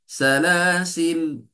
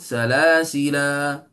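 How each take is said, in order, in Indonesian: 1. Kata itu berakhir dengan bunyi 'l'. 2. Kata itu berakhir dengan vokal 'a'. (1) "kita berhenti dengan salasil lam sahaja. Tidak ada alif" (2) "kalau kita wakaf badannya, kita boleh sebut salasila"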